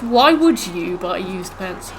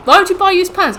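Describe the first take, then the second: First: Drawn-out words at an everyday pitch; slow, pointed question. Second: High, loud, quick outburst of disbelief; incredulous question. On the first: Challenging someone over buying used pants, slow pointed repeat. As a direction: stretch the question out slowly, word by word. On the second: Challenging someone over buying used pants, high incredulous outburst. Mock exchange, question asked then repeated slowly. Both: Acted.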